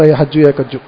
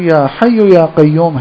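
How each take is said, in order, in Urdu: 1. ان الفاظ میں j اور k کی آوازیں بگڑی ہوئی ہیں۔ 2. ان الفاظ میں y اور q کی آوازیں درست ہیں۔ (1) "یہ بےچارہ صحیح تلفظ کے ساتھ نہیں پڑھ رہا" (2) "تلفظ صحیح کرا دیا"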